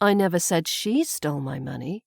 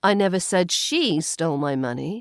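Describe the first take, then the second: First: The stress falls on the word she. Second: The stress falls on the word she.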